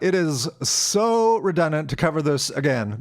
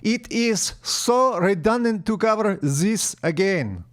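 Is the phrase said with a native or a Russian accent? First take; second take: native; Russian. First: It is said with a native English accent. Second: It is said with a Russian accent.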